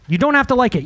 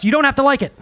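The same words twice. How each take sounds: First: "have" leaned on, "don't" left light; stress on have. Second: "don't" leaned on, the rest falls away; stress on don't. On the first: Pastor repeating the line, now stressing "have". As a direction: land the weight on "have". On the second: Pastor to congregation, stressing "don't". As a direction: land the weight on "don't". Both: Shown as a demonstration. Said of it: "repeats line, shifts stress".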